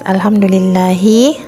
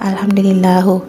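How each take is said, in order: First: The word ends with an 'i' vowel. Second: The word ends with a 'u' vowel. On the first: The speaker calls it right. "lafaz alhamdulillahi" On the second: The speaker calls it wrong. "terbaca alhamdulillahu ... cuman jelas-jelas salah"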